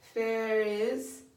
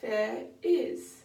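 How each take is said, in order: First: The words run together without a glottal stop. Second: A gentle glottal stop separates the two words. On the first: The speaker calls it wrong. "Instead of" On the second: The speaker calls it right. "we can have"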